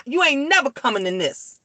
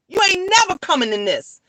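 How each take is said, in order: First: Said in the usual way. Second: Higher and fast, hammering the point; emphatic repeat. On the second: Real, not acted. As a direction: say it again, pushing harder and quicker. Repeats line, then louder.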